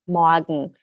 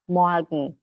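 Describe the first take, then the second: First: The R is softened into a light a sound. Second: The R is softened into a light a sound.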